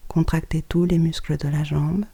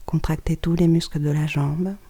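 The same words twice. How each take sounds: The two takes are said the same way.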